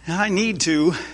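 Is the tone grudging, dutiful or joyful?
dutiful. It is said in a dutiful tone.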